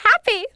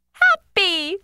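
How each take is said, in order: First: Said in the usual way. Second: Happy split into two hopped beats, HAP and PY; hopping out syllables. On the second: Acted. Rabbit in a story, hops Happy in two beats. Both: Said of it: "I hop twice because I feel so".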